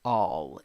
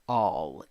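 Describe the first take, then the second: First: The vowel is the open sound heard in 'awe'. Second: The vowel is the open sound heard in 'awe'.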